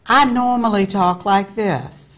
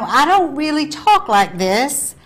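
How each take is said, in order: First: Said in the usual way. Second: Southern accent. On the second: Shown as a demonstration. Host shows her Southern accent, then her normal voice. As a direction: lean into the Southern accent on "I don't really talk like this".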